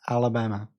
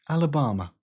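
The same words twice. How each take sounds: First: It is said in an American accent. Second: It is said in a British accent. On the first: The speaker calls it right. "you literally have to say Alabama" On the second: The speaker calls it wrong. "You can't say Alabama in a British accent. It just sounds stupid"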